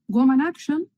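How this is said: The last word is pronounced the English way. "Yo lo pronuncio en inglés porque me encanta cómo suena"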